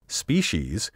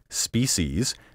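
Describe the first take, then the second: First: The middle consonant is not a hissing s. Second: The middle consonant is a hissing s sound. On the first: This is the long-established form. The speaker calls it right. "The traditional pronunciation" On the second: The speaker finds this form over-refined. The speaker calls it wrong. "The alternative pronunciation"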